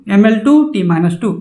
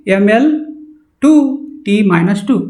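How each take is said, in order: First: Said in the usual way. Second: Drilling slowly. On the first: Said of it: "रट लेंगे". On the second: Shown as a demonstration. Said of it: "इसको क्या पढ़- हम लोग पढ़ेंगे".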